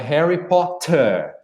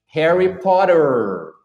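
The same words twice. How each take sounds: First: Crisp T sound and no final R sound. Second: The T sounds like a quick R, final R pronounced. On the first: "não pronuncia o R no final das palavras... pronuncia o T muito firme" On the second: "O americano já é o contrário, ele transforma o T num R"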